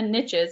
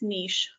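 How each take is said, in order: First: It rhymes with riches, a short i vowel. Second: It is said with a long ee vowel.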